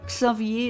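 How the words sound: The name is said with a French pronunciation. "is like the French pronunciation"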